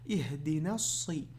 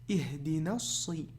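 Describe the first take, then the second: Both takes have the same delivery.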